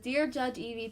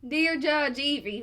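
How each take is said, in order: First: It is read in the speaker's ordinary accent. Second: It is read in a put-on Kentucky accent. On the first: "I'm going to do the first part normally" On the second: "the second part in the accent he told me to do"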